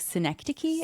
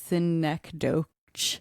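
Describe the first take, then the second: First: The word is said with its accepted pronunciation. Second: The word is sounded out the way it looks. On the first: The speaker calls it right. "but it's actually synecdoche" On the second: The speaker calls it wrong. "it looks like it's spelled synecdoche"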